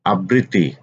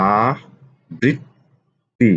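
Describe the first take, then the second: First: Said in the usual way. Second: আবৃত্তি pulled out very slowly; drawn-out spelling. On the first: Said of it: "teacher repeats word slowly". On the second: Shown as a demonstration. Teacher to students, slowly stretching আবৃত্তি. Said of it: "teacher stretches word for students".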